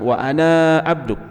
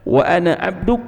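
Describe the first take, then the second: First: The final vowel of ana is drawn out long. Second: The final vowel of ana is kept short. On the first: The speaker calls it wrong. "Jadi bukan wa ana abduk" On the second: The speaker calls it right. "tapi dibaca wa ana abduk"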